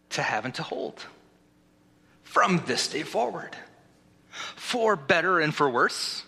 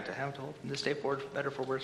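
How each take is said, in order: First: Measured vows, phrase by phrase; wedding officiant. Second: Quick recap. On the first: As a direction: pause after each phrase for the groom to repeat. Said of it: "Repeat after me". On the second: Officiant skimming back through the vows, quick and quiet. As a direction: rattle it off softly, like finding your place. Hurried recap to find his place. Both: Acted.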